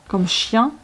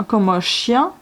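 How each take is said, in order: The two takes are said the same way.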